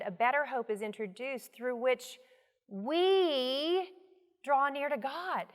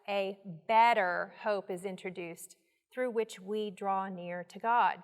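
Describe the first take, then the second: First: The word "we" is given strong emphasis. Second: It is read without special stress on any word.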